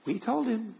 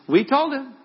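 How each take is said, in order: First: High-pitched aside at normal volume; gossipy I-told-you-so. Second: Very high, loud, gossipy crowing; loud I-told-you-so. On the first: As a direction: slip it in as a high, smug aside. Disciples gossiping on the other side. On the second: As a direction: crow it out for all to hear. Disciples gossiping, repeated more forcefully. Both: Acted.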